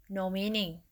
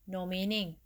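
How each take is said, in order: No difference in how they are said.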